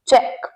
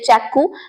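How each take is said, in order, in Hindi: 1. शब्द 'k' ध्वनि पर साफ़ तरह से खत्म होता है। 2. शब्द के अंत में एक अतिरिक्त 'oo' ध्वनि जुड़ती है। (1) "इसे चेक बोलते हैं" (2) "तो ये गलत है"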